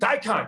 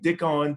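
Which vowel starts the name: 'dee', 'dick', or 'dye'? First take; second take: dye; dick. First: The first vowel sounds like 'dye'. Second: The first vowel sounds like 'dick'. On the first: The speaker calls it right. "when Tyler finally confirmed it" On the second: The speaker calls it wrong. "people were saying Dickon"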